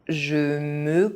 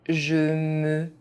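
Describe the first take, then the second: The two takes are said the same way.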